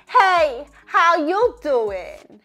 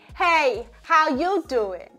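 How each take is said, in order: First: It is said with a high, bright voice. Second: It is said with a medium, neutral voice. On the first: "intentionally with a more higher larynx position" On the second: "a more neutral larynx positioning"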